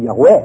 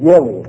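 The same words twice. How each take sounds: First: The stress is on a later syllable. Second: The stress is on the first syllable. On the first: The speaker calls it right. "希伯来文的平常的是这个重音中间那两个字" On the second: The speaker calls it wrong. "他把那个重音放在第一个字"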